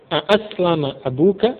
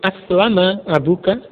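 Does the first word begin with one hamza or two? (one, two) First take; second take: two; one. First: The first word begins with two glottal stops. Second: The first word begins with one glottal stop. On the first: It asks whether the father has embraced Islam. The speaker calls it right. "Dua hamzah" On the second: It states that the father has embraced Islam. The speaker calls it wrong. "Bukan menjadi aslama abuka, tidak menjadi demikian"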